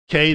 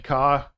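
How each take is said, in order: First: The letter ends in an ay vowel. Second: The letter ends in an ah vowel. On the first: The speaker calls it right. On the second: The speaker calls it wrong.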